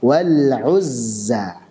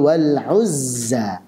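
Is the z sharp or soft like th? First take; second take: sharp; sharp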